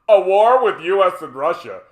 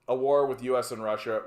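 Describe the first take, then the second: First: It is read in a silly put-on voice. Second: It is read in a normal voice.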